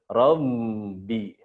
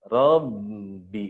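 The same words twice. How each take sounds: The two takes are said the same way.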